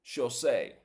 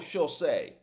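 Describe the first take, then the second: Both takes have the same delivery.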